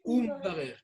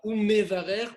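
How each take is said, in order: First: No vowel follows the m. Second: A short vowel follows the m. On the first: The speaker calls it right. "on dit" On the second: The speaker calls it wrong. "On ne dit pas"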